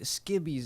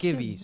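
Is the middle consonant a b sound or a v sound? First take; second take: b sound; v sound. First: The middle consonant is a b sound. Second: The middle consonant is a v sound. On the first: The speaker calls it wrong. "Is that how you say it?" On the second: The speaker calls it right. "Or is it"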